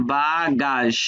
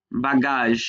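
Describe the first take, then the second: First: বাগাস slowly, split as ba-gaazh; teacher sounding out বাগাস in two parts; syllable-by-syllable demonstration. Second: Said in the usual way. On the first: Shown as a demonstration. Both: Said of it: "দ্বিতীয়টা বর্গীয় জ".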